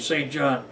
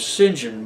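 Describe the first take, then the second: First: The name is said as 'saint john', fully. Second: The name is said as 'sinjan', contracted. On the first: "what is obviously Saint John" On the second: "they pronounce it as"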